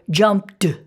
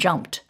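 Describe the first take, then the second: First: The ending is pronounced as a d sound. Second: The ending is pronounced as a t sound. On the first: The speaker calls it wrong. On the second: The speaker calls it right.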